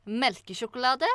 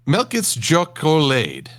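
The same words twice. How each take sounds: First: "melkesjokolade" said fluently as a native Norwegian; correct Norwegian. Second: "Melkit's Jokolade" read slowly as English letters, wrong Norwegian sounds; butchered Norwegian. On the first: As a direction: say "melkesjokolade" smoothly with Norwegian vowels. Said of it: "then I'm gonna pronounce it". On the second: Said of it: "I will butcher this language quite horribly". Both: Shown as a demonstration.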